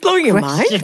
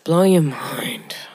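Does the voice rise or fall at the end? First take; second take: rise; fall. First: The voice rises at the end, like a question. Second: The voice falls flatly at the end, sounding deflated.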